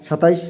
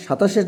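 First: "সাতাইশ" with ai replacing the long a; children's mispronunciation. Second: Said in the usual way. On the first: Shown as a demonstration. Teacher showing what children put for twenty-seven, mispronounced. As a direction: say "সাতাইশ" with an i-glide before sh. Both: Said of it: "সাতাশের জায়গায় তারা সাতাইশ".

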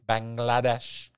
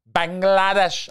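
First: Said in the usual way. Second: Bangladesh sung out high and loud, each syllable savored; playful Bangladesh. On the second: Shown as a demonstration. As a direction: belt out Bangladesh up high like a happy chant. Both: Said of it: "just say it".

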